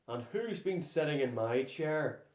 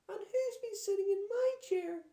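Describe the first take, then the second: First: It is roared in a deep Daddy Bear voice. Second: It is wailed in a small Baby Bear voice.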